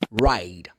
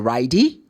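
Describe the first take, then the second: First: The word ends on the final consonant sound. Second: An extra vowel sound follows the final consonant. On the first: The speaker calls it right. "No, it's ride. The last sound is d" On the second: The speaker calls it wrong. "You don't say ridey"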